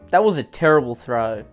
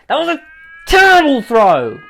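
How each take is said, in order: First: It is said in a calm, plain way. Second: It is said in an angry way.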